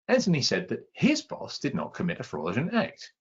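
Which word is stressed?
his. The word his carries the stress. It was someone else's boss instead. "It wasn't his boss, it was somebody else's boss"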